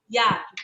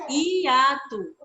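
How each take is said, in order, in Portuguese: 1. O i e o a formam uma única sílaba. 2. O i e o a ficam em sílabas separadas. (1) "A gente não fala hiato" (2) "as vogais, né, separadas"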